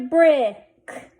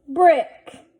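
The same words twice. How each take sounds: First: Brick with the vowel held before the k; blended slowly. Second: Said in the usual way. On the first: Shown as a demonstration. Teacher sounding out a word for readers, blended slowly. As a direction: stretch brick out, then close on k. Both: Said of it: "Let's read this".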